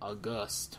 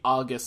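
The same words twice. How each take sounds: First: It is said unlike the month name. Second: It is said like the month name. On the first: The speaker calls it right. "apparently you're supposed to say August" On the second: The speaker calls it wrong. "they see the word and they think the month"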